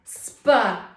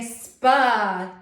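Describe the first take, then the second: First: The two letters are blended into one sound. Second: The same.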